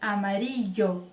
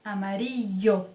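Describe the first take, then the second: Both takes have the same delivery.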